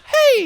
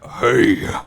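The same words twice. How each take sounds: First: The voice is pitched high and squeaky. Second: The voice is pitched low and deep. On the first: How it sounds to humans. "But to us, we'd still hear it as" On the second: How it sounds to other worms. "to other worms is like"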